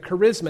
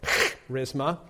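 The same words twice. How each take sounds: First: The word begins with a hard k sound. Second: The word begins with a hissing, raspy sound. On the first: The speaker calls it wrong. "it appears as our English word charisma" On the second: The speaker calls it right. "In Greek, you make a cat hissing sound"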